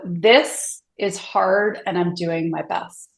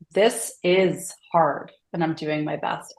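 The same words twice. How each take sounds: First: "This" punched first, then the rest slow and even; slow mantra with weight on "This"; stress on THIS. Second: "is" lifted and held a beat before "hard"; slow mantra with the weight moved onto "is"; stress on IS. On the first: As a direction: lean hard on "This" to open the mantra. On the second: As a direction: press the word "is" as if insisting it really is. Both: Shown as a demonstration. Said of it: "emphasize a different word each time you say it".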